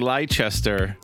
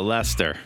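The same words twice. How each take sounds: First: The name is said as it is spelled. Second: The name is said in a shortened form. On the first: "what looks like Leicester" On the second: "If you're in England, you call it Leicester"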